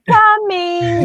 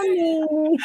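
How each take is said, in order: First: Sing-song "Coming" pitched much higher; Frank-N-Furter impression. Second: High, softer drawn "Coming"; Frank-N-Furter impression. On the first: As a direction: call "Coming" to the dog like Frank. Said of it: "I use that line ... I'm like". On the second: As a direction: coo "Coming" toward the door. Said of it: "I'm like".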